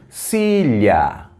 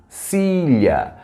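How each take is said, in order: Both takes have the same delivery.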